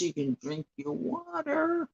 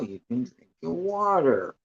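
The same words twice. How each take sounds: First: Much higher sing-song repeat; high playful echo before a laugh. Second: Said in the usual way. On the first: Acted. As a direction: lift it way up, teasing and cheerful.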